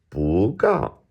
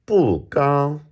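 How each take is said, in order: First: "不" rising, "高" falling from high; second then fourth tone. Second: "不" falling from high, "高" held high and level; fourth then first tone. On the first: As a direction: lift "不", then drop "高". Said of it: "changing the first one". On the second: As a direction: drop "不", then sustain "高" on a high note. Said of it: "this is fourth, first". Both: Shown as a demonstration.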